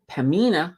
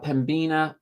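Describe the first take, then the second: First: The b sound is left out in the middle. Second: The b sound is pronounced in the middle. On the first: The speaker calls it right. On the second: The speaker calls it wrong.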